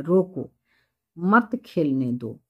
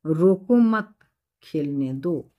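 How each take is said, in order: First: "रोको" set apart, clear pause, then "मत खेलने दो" together; pause after रोको. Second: "रोको मत" joined and emphatic, pause, then "खेलने दो"; pause after मत. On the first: Teacher demonstrating where the comma falls, pause after "रोको". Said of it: "यहाँ कॉमा है तो रुकना है". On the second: Teacher giving the second comma example, pause after "मत". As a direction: run "रोको मत" together and stop before "खेलने दो". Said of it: "और दूसरा". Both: Shown as a demonstration.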